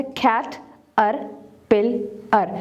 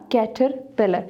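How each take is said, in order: First: कैट, अर, पिल, अर with clear pauses; four separate beats, कैट, अर, पिल, अर; syllable by syllable. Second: Said in the usual way. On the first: Shown as a demonstration. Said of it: "separate the syllables". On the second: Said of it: "four syllable word है".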